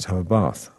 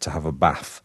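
First: It is said in received pronunciation. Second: It is said in a northern English accent. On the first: "when you do receive pronunciation, then you have to say" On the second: "Is how I would have said it in my original accent"

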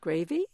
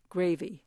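First: The pitch rises at the end of the word. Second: The pitch falls at the end of the word. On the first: It is a polite offer asking whether the listener wants some. "was said by the British women with a rising intonation" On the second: It is a flat statement, take it or leave it. "said it with a falling intonation"

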